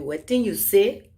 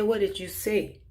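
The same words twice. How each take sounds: First: It is said in a Liberian English accent. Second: It is said in a plain, unmarked accent. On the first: "in my Liberian accent" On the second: "if you want to say"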